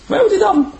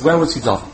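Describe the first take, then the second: First: "Where" jumps up high, loud and pleading; urgent, high-pitched plea; eager high repeat. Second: Said in the usual way. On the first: Acted. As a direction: press the question again, much higher. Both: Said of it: "repeated louder".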